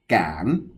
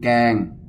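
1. Âm tiết này được đọc với thanh mai chattawa. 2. Âm tiết này được đọc không có dấu thanh.

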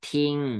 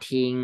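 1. พยางค์นี้มีเสียงวรรณยุกต์เสียงตก 2. พยางค์นี้มีเสียงวรรณยุกต์เสียงกลาง (1) "ไม้เอก" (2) "ทออีงอทิง"

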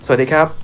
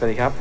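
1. เสียงดังสุดเลย 2. เสียงมีเอคโค่ชัดเจน (1) "ลองเร่งดังสุดให้ดูนะฮะ"

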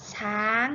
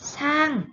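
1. อ่านด้วยเสียงไม้โทค่ะ 2. อ่านด้วยเสียงไม้เอกค่ะ (1) "ไม้โทช้าง" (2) "ไม้เอกช่าง"

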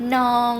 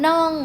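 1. พยางค์นี้เป็นเสียงสามัญ 2. พยางค์นี้เป็นเสียงโท

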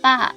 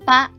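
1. พยางค์นี้ออกเสียงเป็นเสียงตก 2. พยางค์นี้ออกเสียงเป็นเสียงสูง (1) "เสียงโท" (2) "เสียงตรี"

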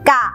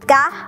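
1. พยางค์นี้มีเสียงต่ำ 2. พยางค์นี้มีเสียงสูง (1) "มีรูปสามัญแต่มีเสียงวรรณยุกต์เอก" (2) "มีรูปวรรณยุกต์ตรีมีเสียงวรรณยุกต์ตรี"

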